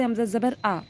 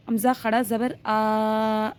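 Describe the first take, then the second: First: हमज़ा ज़बर with the final आ cut short, unstretched; short vowel. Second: हमज़ा खड़ा ज़बर with आ held long and steady; long vowel. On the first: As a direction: spell it out, ending on a brief आ. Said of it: "ज़बर को हम किस तरह पढ़ते थे". (आख़िरी आ को बिना खींचे छोटा पढ़ें) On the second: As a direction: spell it out, then stretch the final आ. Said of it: "हम इसको इस तरह पढ़ेंगे". (आख़िरी आ को खींचकर पढ़ें) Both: Shown as a demonstration.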